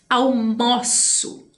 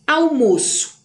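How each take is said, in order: First: Almoço drawn out slowly with an open ó, like "almóço". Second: Almoço with a closed ô, like "almôço". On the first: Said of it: "forma do verbo de almoçar". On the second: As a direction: say Almoço with the stressed o closed, as the noun. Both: Shown as a demonstration.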